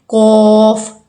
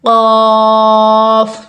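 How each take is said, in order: First: The vowel has an added rounded 'oo' sound. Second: The vowel is a long open 'aa' sound. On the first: The speaker calls it wrong. "अक्सर हम यहाँ पे गलती करते हैं" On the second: The speaker calls it right. "ये वर्ड्स है कौफ कौफ"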